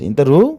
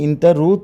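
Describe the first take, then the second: First: The end of the phrase is pushed up. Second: The end of the phrase is said flat. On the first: It asks whether the listener is going. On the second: It states that the listener goes.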